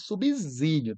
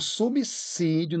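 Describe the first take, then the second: First: The middle consonant is a buzzing Z sound. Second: The middle consonant is a hissing S sound. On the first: The speaker calls it wrong. "não é subsídio" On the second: The speaker calls it right. "é subsídio"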